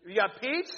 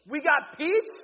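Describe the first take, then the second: First: Said in the usual way. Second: Higher and louder, selling it; excited repeat. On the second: Real, not acted. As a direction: hype up the peach flavor. Repeats flavor, pumped up.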